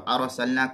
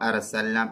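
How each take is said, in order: First: The 'r' is said heavy and full. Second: The 'r' is said light and thin. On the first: The speaker calls it right. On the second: The speaker calls it wrong.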